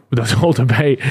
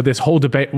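First: Words broken by a real laugh; cracking up laughing. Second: Said in the usual way. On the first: Real, not acted. Host cracks up over the debate, laughing. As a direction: laugh through it, can't hold it in. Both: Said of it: "I don't know why that made me crack up".

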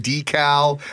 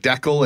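First: "decal" said as DEE-cal; long "dee" opening on "decal"; other pronunciation variant. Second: "decal" said as DECK-ul; short "deck" opening on "decal"; one pronunciation variant. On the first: Comparing cross-border words, "decal" as DEE-cal. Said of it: "different words that they say". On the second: Comparing cross-border words, "decal" as DECK-ul. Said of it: "words like decal and decal". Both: Shown as a demonstration.

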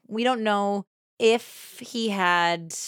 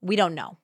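First: Slowed, weighty "don't" leaning into the doubt; stress on don't. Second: Said in the usual way. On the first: Real, not acted. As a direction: draw out "don't" to make the uncertainty land. Repeats the phrase slower.

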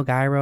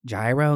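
First: Gyro with a hard g, like guy-ro. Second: Gyro as zhy-ro, tune up; yee-ro. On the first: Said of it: "however you say that". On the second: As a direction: say gyro as zhyro. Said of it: "gyro, however you say that". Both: Shown as a demonstration.

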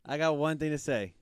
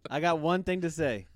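Both takes have the same delivery.

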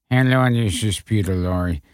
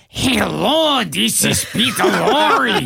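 First: A low, lazy stab at Lorre; terrible Peter Lorre. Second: Higher, slow, creepy Lorre croon; the director demonstrating the real Lorre; Peter Lorre voice. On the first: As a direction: mumble it like a bad Lorre. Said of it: "terrible Peter Lorre imitation". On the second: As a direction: show him how Lorre really sounds. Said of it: "And they go, "No, no". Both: Retold or imitated.

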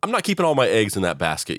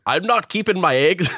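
First: Said in the usual way. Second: Put-on high-pitched, botched Scottish accent gone Lucky Charms; hammed-up mock Scottish lilt, pitched way up; bad Scottish accent. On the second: Retelling what Saoirse said on the call, bad Scottish accent. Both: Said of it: "that was like Lucky Charms".

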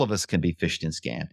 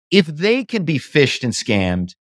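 First: Softer and lower, the point dropped quietly: "all of us can be phished and scammed"; quiet payoff. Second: Slow, each word leaned on: "If they can be phished and scammed"; drawing out "phished and scammed" to make the point land; slow emphatic stress. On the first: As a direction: let the conclusion fall softly, almost to yourself. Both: Real, not acted. Building a point about being scammed.

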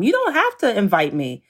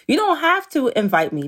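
First: Said in the usual way. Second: Higher on "don't", pressed home; emphatic repeat. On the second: Real, not acted. Mom repeating to the host that she needn't invite her, more insistent.

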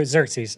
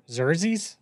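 First: Xerxes said as "ZERK-seez", with a falling tune; corrected pronunciation. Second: Xerxes tried as "ZER-zeez", rising like a question; tentative, questioning stab at Xerxes as "ZER-zeez"; unsure pronunciation. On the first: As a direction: say Xerxes with the k sound, settled and no longer asking. Repeats the name after being corrected. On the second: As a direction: sound out Xerxes softly and doubtfully, dropping the k sound. Stumbling over an unfamiliar name. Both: Real, not acted.

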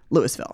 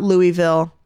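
First: Louisville said LOO-iss-vill; local pronunciation. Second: Louisville said LOO-ee-vill; non-local pronunciation. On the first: Host teaching newcomers, Louisville as LOO-iss-vill. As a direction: sound the s in Louisville. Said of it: "how do you pronounce". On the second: Host showing newcomers' mistake, Louisville as LOO-ee-vill. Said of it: "That's not how we say it here". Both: Shown as a demonstration.

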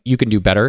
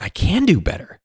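First: "You can do better" with a rising end; "You can do better" held level, then raised at the end; challenging someone. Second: "I can do better" higher, peaking on "do"; "I can do better" with a high rise-fall; answering the challenge. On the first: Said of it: "someone that's like". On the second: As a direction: answer back with "do" lifted high, then falling. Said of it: "And you're like". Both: Retold or imitated.

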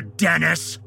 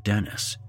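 First: "Dennis" punched mockingly at the end of a shout; sarcastic emphasis. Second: Said in the usual way. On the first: A narrator's reading. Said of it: "putting sarcastic emphasis on the word Dennis". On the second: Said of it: "the word Dennis".

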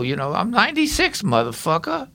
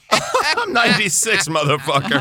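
First: Foul-mouthed Brooklyn guy; salty Brooklyn old-timer, raised; Brooklyn accent. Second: Laughing while quoting; chuckling through the quote; laughing imitation. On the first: Shown as a demonstration. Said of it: "Bill, the foul-mouthed Brooklyn guy". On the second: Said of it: "That's a good name for your podcast".

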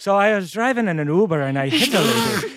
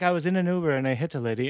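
First: Thick, overdone Irish accent; Irish accent pushed to full caricature; heavy Irish accent. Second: A tenth of the Irish accent, quicker and softer; barely tint it with an Irish accent; understated Irish accent, held back; subtle Irish accent. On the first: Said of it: "if it has, like, an Irish accent". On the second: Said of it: "but, like, a tenth of that". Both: Shown as a demonstration.

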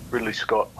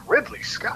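First: Lightly voiced, lower self-introduction; a hint of a director's matter-of-fact low intro; name dropped low and deadpan; Ridley Scott introducing himself. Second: Starstruck whisper of a hero's name; awed whisper. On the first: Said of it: "He goes". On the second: Retold or imitated. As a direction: breathe the name out in awe. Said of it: "who I adore".

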